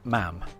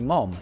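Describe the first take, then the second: First: The vowel is like the one in cat. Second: The vowel is like the one in cot. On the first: This is how the Newcastle area says it. "around the Newcastle area, uh, you would have people pronouncing it mam" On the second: This is how Birmingham says it. "So in Birmingham, in U K, they say mom"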